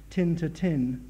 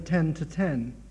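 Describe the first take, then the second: First: Ten is said with a vowel like tin. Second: Ten is said with its usual vowel.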